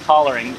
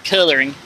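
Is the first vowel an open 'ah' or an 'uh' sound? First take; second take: ah; uh. First: The first vowel is an open 'ah' sound. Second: The first vowel is an 'uh' sound. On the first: "I say it with an open ah ah too" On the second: "I think most people say coloring"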